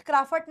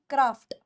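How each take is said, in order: First: क्राफ्ट with an extra vowel, "kraa-fut"; wrong क्राफ्ट. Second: क्राफ्ट in one syllable, "kraaft"; low, falling model of क्राफ्ट; correct क्राफ्ट. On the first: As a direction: break the final cluster of क्राफ्ट into "fut". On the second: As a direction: close क्राफ्ट on a tight "ft", pitch low. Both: Shown as a demonstration. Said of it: "क्राफ्ट नहीं".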